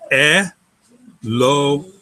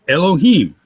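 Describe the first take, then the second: First: "Elohim" very slowly, as E... lo... him; syllable by syllable. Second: Said in the usual way. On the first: Shown as a demonstration. Teacher dividing a Hebrew word for students, syllable by syllable. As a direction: break "Elohim" into three syllables, long gaps between. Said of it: "that final syllable is a closed syllable". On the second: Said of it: "again, consonant vowel".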